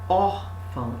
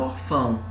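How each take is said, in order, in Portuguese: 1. A tônica está na primeira sílaba. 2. A tônica está na segunda sílaba. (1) "aqui você tem o O, porque você fala órfão" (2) "e não orfão"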